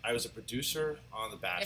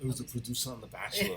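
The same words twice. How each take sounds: First: It is said in the speaker's ordinary accent. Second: It is said in an imitated Austrian accent.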